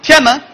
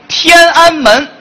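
First: It is said Beijing-style, middle syllable swallowed. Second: It is said in standard Putonghua, all syllables clear.

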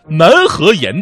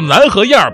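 First: The last syllable has no r-coloring. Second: The last syllable ends with an r-coloring. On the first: The speaker calls it wrong. "就按照字儿读啊" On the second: The speaker calls it right. "正确的读法叫南河沿北河沿"

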